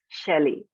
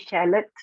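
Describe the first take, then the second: First: The final T sound is silent. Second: The final T sound is pronounced. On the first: The speaker calls it right. "it's chalet" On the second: The speaker calls it wrong. "Do you say shallot? No"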